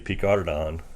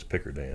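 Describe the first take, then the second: First: The name is said the French way. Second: The name is said the West Texas way.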